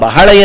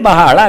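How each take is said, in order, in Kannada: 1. ಮೊದಲ ಸ್ವರ ಹ್ರಸ್ವ ಮತ್ತು ಸರಳವಾಗಿದೆ. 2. ಮೊದಲ ಸ್ವರವನ್ನು ದೀರ್ಘವಾಗಿ ಎಳೆಯಲಾಗಿದೆ. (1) "ಆ ಬಹಳ ಎನ್ನುವುದು" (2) "ಹೆಚ್ಚಾದರೆ ಬಹಳ ಆಗ್ತದೆ"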